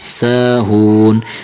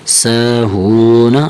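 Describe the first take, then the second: First: The word ends on a bare n sound. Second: The word ends with a vowel after n. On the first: "हालत वक्फ में नून साकिन पड़ा जाएगा" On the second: "नून ज़बर ना"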